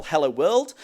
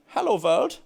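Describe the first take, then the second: First: Said in the usual way. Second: Hello world with a mock German accent, "world" said as "vorld". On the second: Shown as a demonstration. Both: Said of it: "in a German accent".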